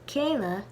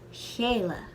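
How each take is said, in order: First: The initial k sound is hard. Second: The initial k sound is softened. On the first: "the initial k sound of Kayla" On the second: "We soften in this word the initial k sound"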